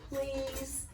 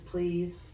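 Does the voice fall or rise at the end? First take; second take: fall; rise. First: The pitch falls at the end. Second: The pitch rises at the end. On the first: It is said as a statement. "Or does please?" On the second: It is asked as a question. "Does please sound like a question mark?"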